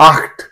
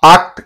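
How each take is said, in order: First: "ఆఖ్ట్" with a throaty kh before the t; "ఆఖ్ట్" as open aakh, then a light t; correct German pronunciation. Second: "ఆఖ్ట్" with a hard k, like akt; "ఆఖ్ట్" with a plain stop before t, as the mistake; mispronunciation demo. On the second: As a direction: say "ఆఖ్ట్" without the throaty friction. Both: Shown as a demonstration. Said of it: "ఆఖ్ట్ కాదు".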